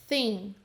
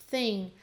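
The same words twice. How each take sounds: The two takes are said the same way.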